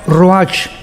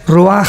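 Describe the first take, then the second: First: The word ends with a 'ch' sound. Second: The word ends with a throaty 'h' sound. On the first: "que se pronuncia Roach" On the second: "pero en el hebreo es Roaj"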